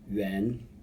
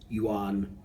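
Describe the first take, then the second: First: The word is said with a Chinese-style pronunciation. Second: The word is said with an English-style pronunciation. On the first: The speaker calls it right. "in the original Chinese it's actually yuan" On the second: The speaker calls it wrong. "You'll often hear people pronounce this as yuan"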